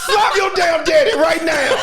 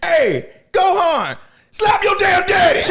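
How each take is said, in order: First: High loud yell cracking with laughter; laughing shout. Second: High, loud yell; laughing shout. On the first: Fan repeating the yell at Gohan, high shout breaking into laughter. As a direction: holler it again through laughs. Yelling again while laughing. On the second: Fan yelling at Gohan to hit Ginyu, high loud laughing shout. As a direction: holler at the screen. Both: Real, not acted.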